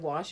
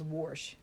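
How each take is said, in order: First: The word is said the standard way. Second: The word is said the grandparents' regional way. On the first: This is the usual way of saying it. "instead of wash" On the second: This is how the grandparents said it. "my grandparents said, ... it was wash"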